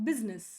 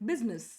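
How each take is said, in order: Both takes have the same delivery.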